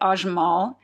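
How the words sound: The name is said with an American pronunciation. "a lot of Americans say Ajmal"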